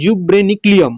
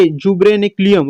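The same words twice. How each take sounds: First: Jubreniculum said at normal pace, ending on a fall; clear pronunciation. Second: Jubreniculum drawn out very slowly, syllable by syllable; slow spelled-out jubreniculum; careful pronunciation. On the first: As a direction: say Jubreniculum crisply once for the class. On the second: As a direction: stretch out jubreniculum slowly so students catch each sound. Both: Shown as a demonstration. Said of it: "इसको pronounce ठीक से करने की कोशिश करना".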